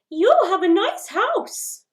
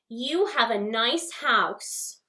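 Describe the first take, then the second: First: It is said at a high pitch. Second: It is said at a middle pitch.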